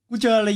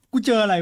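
Both takes have the same delivery.

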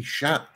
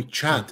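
First: "chat" the French way, starting with sh; French pronunciation. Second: Said in the usual way. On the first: Shown as a demonstration. Owner suggests the kitten's French word, "chat" said with sh. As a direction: say "chat" as French for cat, sha. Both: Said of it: "something about him being French".

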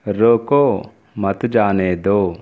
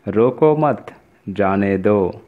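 First: रोको drawn out, a clear break, then मत जाने दो run together; pause after रोको. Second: रोको मत run together, a clear break, then जाने दो; pause after मत. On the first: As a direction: stop after रोको, as in "stop, don't let go". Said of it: "यह अल्प विराम के वजह से इस वाक्य का अर्थ". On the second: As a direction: break after मत, as in "don't stop, let go". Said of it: "अल्प विराम का उपयोग करने से". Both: Shown as a demonstration.

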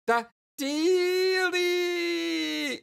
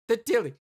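First: Very high, hugely drawn-out squeal; ecstatic squeal. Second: High, quick excited blurt. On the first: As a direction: stretch DEALIE into a long shriek. Same word drawn into a squeal. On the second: Excited character fumbles for word. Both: Acted.

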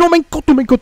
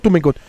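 First: High shriek of disbelief; shrieking jackpot winner. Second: Said in the usual way. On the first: Real, not acted. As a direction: scream it out, overwhelmed and thrilled. Shock at a near crash.

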